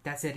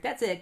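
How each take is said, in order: First: Resigned. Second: High, eager urging; urgent encouragement. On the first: Wally realizes Barry has left him, resigned. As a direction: say it as if hope is gone. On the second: Wally urges Barry as he reaches out, eager and high. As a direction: cheer a rescuer on. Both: Retold or imitated.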